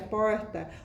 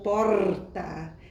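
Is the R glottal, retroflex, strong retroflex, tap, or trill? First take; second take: retroflex; trill. First: The R is curled back, retroflex. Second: The R is a rolled trill. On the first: "Nós temos o R retroflexo, que é porta" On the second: "que já é a vibrante múltipla"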